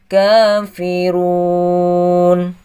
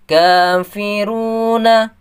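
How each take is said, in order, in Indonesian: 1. Vokal akhir dihilangkan, berakhir pada n. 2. Kata ini berakhir dengan bunyi vokal.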